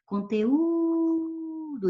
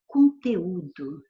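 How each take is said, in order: First: "conteúdo" with a long, high-held ú; lingering stressed vowel. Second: Said in the usual way. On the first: Shown as a demonstration. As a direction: stretch the ú in "conteúdo" before finishing on "do". ("conteúdo" demorando bem no ú tônico) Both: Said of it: "eu demoro aqui".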